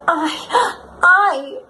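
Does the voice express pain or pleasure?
pleasure. It sounds like a sigh of pleasure.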